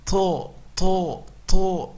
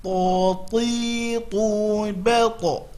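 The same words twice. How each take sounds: First: To said with air escaping, as hams; breathy wrong ta. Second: To held firm with no escaping air; correct ta without breath. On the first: Teacher demonstrating the wrong breathy To. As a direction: let breath leak out on To. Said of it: "Salah, dia bukan huruf hams". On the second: Teacher giving the correct To without breath. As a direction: say To solid, no breath. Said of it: "kesalahan ... keluar nafas". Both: Shown as a demonstration.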